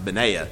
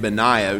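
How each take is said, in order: First: The name rhymes with Isaiah. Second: The name does not rhyme with Isaiah. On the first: The speaker calls it right. "It's probably supposed to be pronounced Benaiah" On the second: The speaker calls it wrong. "I've been pronouncing his name Benaiah"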